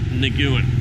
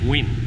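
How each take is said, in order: First: It is said with several syllables, unlike 'win'. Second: It is said as one syllable, like 'win'. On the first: The speaker calls it wrong. "It's not Nguyen" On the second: The speaker calls it right. "it's Win. Think of like Win"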